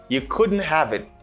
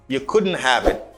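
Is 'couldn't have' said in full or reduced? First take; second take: full; full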